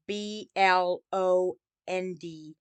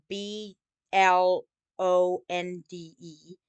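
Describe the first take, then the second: First: B L O N D spelled slowly, letter by letter, stopping on D; spelled out without E. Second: B L O N D E spelled slowly, letter by letter, ending on E. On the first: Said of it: "no E at the end". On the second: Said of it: "adding E at the end". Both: Shown as a demonstration.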